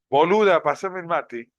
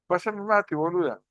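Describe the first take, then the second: First: It sounds hostile and insulting. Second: It sounds friendly and casual.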